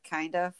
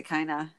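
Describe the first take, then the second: First: "kind of" as two words with the D sounded; careful, soft "kind of"; full "kind of". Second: "kinda" with no D or V; low, casual "kinda". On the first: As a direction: keep "kind" and "of" distinct. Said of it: "instead of". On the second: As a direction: slur to one word, "kinda". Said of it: "I say". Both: Shown as a demonstration.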